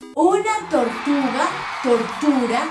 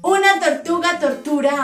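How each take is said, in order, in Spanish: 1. Se dice a ritmo lento. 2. Se dice a ritmo más rápido.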